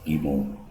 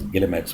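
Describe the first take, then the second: First: It is said with a French-style pronunciation. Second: It is said with an English-style pronunciation. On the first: The speaker calls it right. "basically they're pronounced as Gimo" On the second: The speaker calls it wrong. "any English language speaker and a non-French person would obviously, you know, take it, uh, pronounce it as Guillemets"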